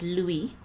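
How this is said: It is said with a French pronunciation. The speaker calls it right. "proper French is Louis"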